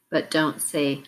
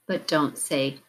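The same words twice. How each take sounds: The two takes are said the same way.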